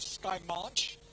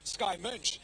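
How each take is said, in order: First: The surname vowel sounds like the vowel in 'launch'. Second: The surname vowel is a German umlaut sound. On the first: This is how the name's owner says it. "she calls herself Sky March. She says to me, it's just like launch" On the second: This follows the German spelling of the name. "it's an O E, which is the O umlaut"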